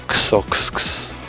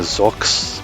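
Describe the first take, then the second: First: The name begins with a KS sound. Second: The name begins with a Z sound. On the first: "That's how I like to pronounce him" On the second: "in English you would, pronounce the first X as a kind of Z sound"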